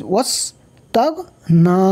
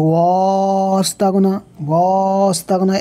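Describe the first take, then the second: First: ওয়াস short, closing straight onto the s, then তাগ, না; no stretch on ওয়া. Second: ওয়াস with the vowel dragged out very long; mistaken long vowel. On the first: Teacher giving the correct reading, short ওয়াস. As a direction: keep the vowel of ওয়াস short, only না lengthened. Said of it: "তাহলে এখানে ওয়া টান হবে না". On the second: Teacher mimicking a wrong reading, overlong first vowel. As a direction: stretch the first vowel of ওয়াস, then তাগ না. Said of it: "এ সম্পূর্ণ ভুল হবে". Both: Shown as a demonstration.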